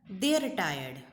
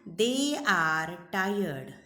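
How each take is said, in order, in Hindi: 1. 'They are' को एक अक्षर 'they're' में छोटा कर दिया जाता है। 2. 'they' और 'are' दोनों शब्द पूरे बोले जाते हैं।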